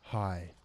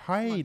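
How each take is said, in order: First: The greeting sounds plain and not talking-down. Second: The greeting sounds sweet and talking-down. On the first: The listener is treated as an equal. "Let me just change up my tone" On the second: The listener is treated as less capable. "Condescending tone"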